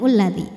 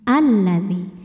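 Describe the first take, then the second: First: The word begins with a u vowel. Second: The word begins with an a vowel. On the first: The speaker calls it wrong. "bukan ulladzi" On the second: The speaker calls it right. "Harokatnya apa ini? Fathah, A"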